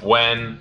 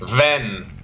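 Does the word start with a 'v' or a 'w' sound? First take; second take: w; v. First: The word starts with a 'w' sound. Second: The word starts with a 'v' sound. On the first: The speaker calls it right. "instead of when" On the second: The speaker calls it wrong. "W sound like V"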